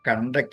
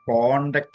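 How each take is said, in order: First: The first vowel sounds like 'uh'. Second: The first vowel sounds like 'o'. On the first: It means to organize something. "കണ്ടക്ട് എന്നേ പറയുള്ളൂ" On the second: It means a record of good behaviour. "കോണ്ടക്ട് certificate"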